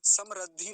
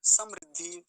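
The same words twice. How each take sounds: First: समृद्धि mispronounced as sam-rad-dhi, loud; wrong ra sound. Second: समृद्धि said loudly as sam-rid-dhi; correct ri sound. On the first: Teacher showing the mistake to avoid, ra sound. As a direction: say समृद्धि with ra in place of ri. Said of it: "समृद्धि नहीं बोलेंगे". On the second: Teacher modelling the word for students, clear ri. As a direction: hit समृद्धि hard with a short ri. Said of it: "रिकार है". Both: Shown as a demonstration.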